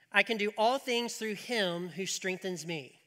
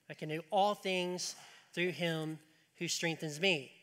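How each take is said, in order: First: Slow, solemn reading of the verse; scripture reading. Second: Said in the usual way. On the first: Shown as a demonstration. Pastor reading the verse aloud to the church, slow and solemn. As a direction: read the verse out slowly and deliberately. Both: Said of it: "It says this".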